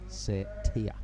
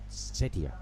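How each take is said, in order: First: The final 'tia' part is leaned on. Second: The final 'tia' part is not leaned on. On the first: The speaker calls it right. "Lean on the T and the I A for Tia" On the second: The speaker calls it wrong. "not Setia, as we've been saying"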